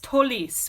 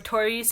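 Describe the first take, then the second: First: The name is said with an L sound. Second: The name is said with an R sound. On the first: The speaker calls it right. "It's Tolis with an L" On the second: The speaker calls it wrong. "it's not Taurus or Taurus"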